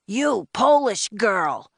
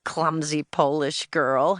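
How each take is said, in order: First: High, drawn-out bossy shout; loud agent's reprimand. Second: Slow, mocking boy's jeer; sneering schoolyard name-calling; snickering taunt. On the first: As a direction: holler slowly at one child, pitch raised. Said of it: "his voice even louder than his jacket". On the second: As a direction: draw the insult out at normal volume, mockingly. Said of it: "A big boy behind me snickered". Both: A narrator's reading.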